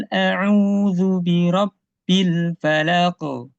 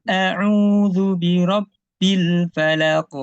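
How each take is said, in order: No difference in how they are said.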